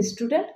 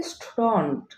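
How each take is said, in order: First: "স্টুডেন্ট" with e, stu-dent; common pronunciation. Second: "স্টুডেন্ট" as stu-dont, open vowel; correct pronunciation. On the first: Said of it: "উচ্চারণ করে থাকি". ("স্টুডেন্ট" প্রচলিত উচ্চারণ) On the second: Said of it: "correct pronunciation হবে". ("স্টুডেন্ট" শুদ্ধ স্টুডন্ট উচ্চারণ) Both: Shown as a demonstration.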